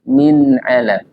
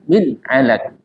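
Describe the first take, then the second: First: The n is soft with a slight nasal hum. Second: The n is cut off abruptly without nasal hum. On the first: The speaker calls it right. "ucapkan dengan lembut dan sedikit sisakan dengung" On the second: The speaker calls it wrong. "Contoh dihentak"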